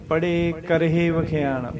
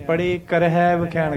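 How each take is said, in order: First: ਕਰਹੇ ends in a clear short e sound; correct karhe. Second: ਕਰਹੈ said with an open ai ending; the mistaken ਕਰਹੈ, ending on ai; wrong karhai. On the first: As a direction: say ਕਰਹੇ with the ending as e, not ai. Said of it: "ਕਰਹੇ ਕਹਿਣਾ". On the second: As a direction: demonstrate the wrong ਕਰਹੈ with an ai vowel. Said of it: "ਕਰਹੈ ਨਹੀਂ ਕਹਿਣਾ". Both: Shown as a demonstration.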